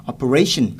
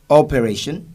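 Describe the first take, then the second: First: "operation" stressed on the last-but-one syllable, RA; correct stress. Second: "operation" stressed wrongly, off its usual syllable; non-English pronunciation. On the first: Teacher models the word for students, correct stress. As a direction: punch the RA in "operation". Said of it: "the correct pronunciation is". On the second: Teacher shows how it should not be said, non-English pronunciation. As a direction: say "operation" with misplaced stress, louder. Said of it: "is not English". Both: Shown as a demonstration.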